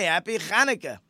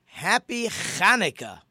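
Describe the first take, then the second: First: "Hanukkah" with a guttural ch scraped in the throat; real ches. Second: "Hanukkah" with a throaty, rasping ch, like a Hebrew ches; the woman's "Hanukkah" starting from the back of the throat; real ches. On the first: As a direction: repeat her "Hanukkah" with that throaty Hebrew ch. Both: Retold or imitated. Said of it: "with a real ches".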